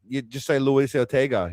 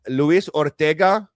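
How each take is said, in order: First: Said in the usual way. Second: Put-on slow, newsreader-style Spanish accent on "Luis Ortega", rising at the end; a reporter hamming up a Spanish accent on "Luis Ortega"; "Luis Ortega" said slowly, a bit louder, in an exaggerated Spanish accent; mock Spanish accent. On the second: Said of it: "news reporters have to put on".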